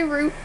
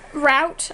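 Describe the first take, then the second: First: ROUTE sounding like "root"; ROUTE with an "oo" vowel; rejected pronunciation. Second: ROUTE rhyming with "out"; ROUTE with an "ow" vowel; own pronunciation. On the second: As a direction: say ROUTE as "rowt". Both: Shown as a demonstration. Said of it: "I don't say route".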